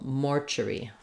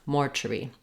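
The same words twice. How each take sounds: No difference in how they are said.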